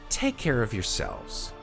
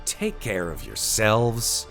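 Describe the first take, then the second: First: It is said in a warm, nice tone. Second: It is said in a somewhat angry tone. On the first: "let me just say that in more of a nice way" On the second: "I said that in a kind of like a, a little bit of a sort of angry way"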